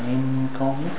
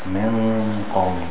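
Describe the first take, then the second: First: The nasal sound is thin and light. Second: The nasal sound is thick and full. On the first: The speaker calls it wrong. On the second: The speaker calls it right. "the gunna sound will also be thick"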